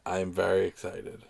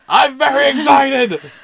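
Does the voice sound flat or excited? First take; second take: flat; excited. First: It is said flatly, with little energy. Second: It is said loudly, with lively energy. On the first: The speaker calls it wrong. "You don't sound excited" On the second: The speaker calls it right. "Sound more excited!"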